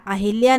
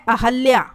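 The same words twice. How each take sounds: First: अहिल्या with hi; an i in the middle, a-hil-yaa, in अहिल्या; wrong form. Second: अहल्या with ha; short a in the middle, a-hal-yaa, in अहल्या; correct form. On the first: Teacher showing the wrong vowel, अहिल्या with i after h. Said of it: "अहिल्या नहीं होता". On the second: Teacher giving the right name, अहल्या with a after h. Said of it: "ये होता है अहल्या". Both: Shown as a demonstration.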